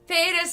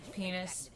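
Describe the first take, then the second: First: It is said more loudly, near shouting. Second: It is said at normal speaking volume.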